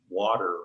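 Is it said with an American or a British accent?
American. American accent, with the T sounding like D.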